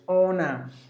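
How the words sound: The final R sound is silent. "That's British"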